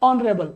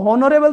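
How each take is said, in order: First: The word begins directly with a vowel sound. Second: The word begins with an audible h sound. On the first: The speaker calls it right. "इसको ओ बोलते हैं, मतलब ये एच नहीं बोला जाता" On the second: The speaker calls it wrong. "अब इसको हॉनरेबल तो बोलेंगे नहीं"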